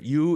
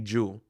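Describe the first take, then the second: First: It begins with a plain y sound. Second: It begins with a j sound, Mexican-accented.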